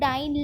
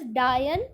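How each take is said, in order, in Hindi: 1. यह ऐसे बोला गया है इसलिए यह 'lion' से तुक नहीं मिलाता। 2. यह ऐसे बोला गया है इसलिए यह 'lion' से तुक मिलाता है। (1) "अगर मैं बोलूँ डाइन लायन तो भी राइम नहीं करा" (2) "अगर मैं इसको प्रोनाउंस करूँ एज डायन तो वो मेरा नीचे प्रोनाउंस करेगा लायन के साथ"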